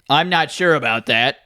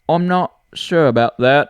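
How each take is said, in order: First: It is spoken in a plain accent. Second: It is spoken in a British accent.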